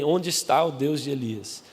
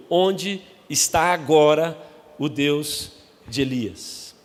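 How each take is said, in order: First: Said in the usual way. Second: Stretched, slow searching cry; slow dramatic cry. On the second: Acted. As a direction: drag out the question. Quoting Eliseu's cry.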